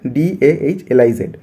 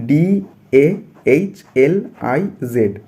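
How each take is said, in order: First: Said in the usual way. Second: "डी ए एच एल आई जेड" spelt out very slowly, letter by letter; slow spelling. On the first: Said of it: "फिर से मैं आपको repeat कर दूँगा". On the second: Shown as a demonstration. Teacher spells the word for students, very slowly. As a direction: drag out each letter of "डी ए एच एल आई जेड". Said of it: "मैं यहाँ पे आपको धीरे धीरे बोल रहा हूँ".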